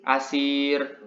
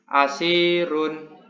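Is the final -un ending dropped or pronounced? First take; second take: dropped; pronounced. First: The word ends abruptly without the -un ending. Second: The word ends with the full -un ending. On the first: The reading stops at this word. "untuk membaca wakafnya ... cukup menyebutkan asir" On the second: The reading continues into the next word. "apabila dibaca wasol, maka cara membacanya adalah asirun"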